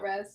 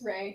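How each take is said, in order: First: The word ends in an s sound. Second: The word ends in a vowel sound. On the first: The speaker calls it wrong. "not Res" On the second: The speaker calls it right. "It's it's Ray"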